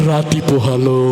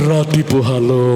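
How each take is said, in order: Both takes have the same delivery.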